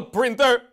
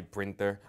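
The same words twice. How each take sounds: First: "printer" barked out high and loud; furious shout of "printer"; angry yell. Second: "printer" said low and soft, deflated; quiet contrite "printer"; sheepish apology. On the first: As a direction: spit "printer" at him as an insult. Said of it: "That was a rare show of aggression". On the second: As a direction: mumble "printer" meekly after the outburst. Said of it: "I'm sorry". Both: Acted.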